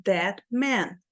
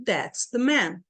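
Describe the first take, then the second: First: THAT, gap, MAN; both "That" and "man" stressed, evenly timed; two strong beats. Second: THAT'S and MAN on the beat, "the" in the gap; measured "THAT'S the MAN"; same rhythm. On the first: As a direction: leave an empty space between "That" and "man". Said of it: "Olha a frase um e a frase dois". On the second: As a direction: squeeze "the" between stressed "That's" and "man". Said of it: "Eu mantive o mesmo ritmo". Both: Shown as a demonstration.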